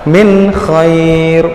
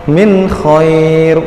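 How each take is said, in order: The two takes are said the same way.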